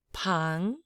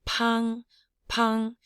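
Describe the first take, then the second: First: Said in the usual way. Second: PANG high and level, like a bell. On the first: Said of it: "And make a high bell tone". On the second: Shown as a demonstration. Teacher modelling the word, high bell tone on PANG. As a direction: ring PANG out on one high note. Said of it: "make a high bell tone".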